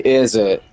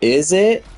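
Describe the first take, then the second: First: It sounds like a statement closing the sentence. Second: It sounds like a real question seeking confirmation. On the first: The speaker is not actually asking anything. The speaker calls it right. "You're not trying to ask an actual question" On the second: The speaker really wants an answer. The speaker calls it wrong. "You don't read it like you're trying to ask for confirmation"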